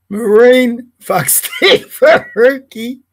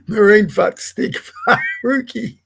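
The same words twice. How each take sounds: First: Slow, relishing each word, laughing; savoured slow repeat. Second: Giggles break through the nickname; can't keep a straight face reading it out; laughing. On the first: Repeating the nickname for viewers, slow and laughing. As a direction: drag it out to enjoy it. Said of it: "Can I say that again?". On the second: Reading a rude nickname aloud, laughing. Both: Real, not acted.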